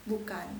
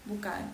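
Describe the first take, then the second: The two takes are said the same way.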